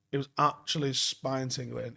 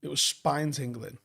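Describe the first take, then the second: First: "actually" stretched for emphasis; stress on actually. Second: Said in the usual way. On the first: Real, not acted. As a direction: hit the word "actually" to insist.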